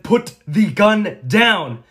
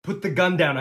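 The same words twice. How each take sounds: First: "Put the gun down" shouted slowly, word by word; emphatic shouted order. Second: High, urgent command; firm raised order. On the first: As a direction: hit every word of "Put the gun down", loud and drawn out. Repeats order louder and slower. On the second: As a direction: order the gunman firmly. First order to gunman. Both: Acted.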